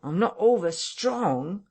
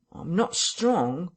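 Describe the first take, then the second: First: Higher and more insistent; whining, louder repeat. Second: Whining tramp voice. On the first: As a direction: press the complaint harder. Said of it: "he repeated". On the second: Marvel's first plaint. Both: A narrator's reading.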